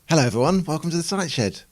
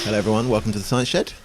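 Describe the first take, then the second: First: The greeting sounds forced and enthusiastic. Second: The greeting sounds bored and flat.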